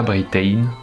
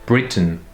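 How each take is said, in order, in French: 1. La voyelle finale est pleine et claire. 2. La voyelle finale est un schwa faible.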